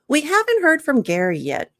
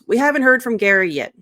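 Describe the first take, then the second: First: The voice sounds warm and friendly. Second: The voice sounds cross and annoyed. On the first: The speaker is inviting a contribution. The speaker calls it right. "Notice the intonation" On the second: The speaker seems upset with the person. The speaker calls it wrong. "your arms are crossed, ... are you mad at Gary?"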